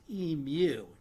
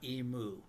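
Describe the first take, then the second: First: The word is said the Australian way. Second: The word is said the American way. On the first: The speaker calls it right. "note to Americans and Doug, this bird is pronounced emu" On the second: The speaker calls it wrong. "not emu"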